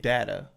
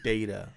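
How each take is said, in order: First: The first syllable does not sound like 'day'. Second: The first syllable sounds like the word 'day'. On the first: "I've been saying data" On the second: "conceding it to be data"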